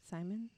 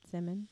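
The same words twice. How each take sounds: First: Simon with a long i, "SIGH-mun"; long-i pronunciation. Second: Simon with a short i, "SIM-un"; short-i pronunciation. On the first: Reader unsure of a surname, Simon said as SIGH-mun. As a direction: ask "Simon?" as SIGH-mun, rhyming with diamond. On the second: Reader trying the surname another way, Simon said as SIM-un. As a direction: ask "Simon?" as SIM-un, like Simmons. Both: Shown as a demonstration. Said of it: "I hate English. One of those".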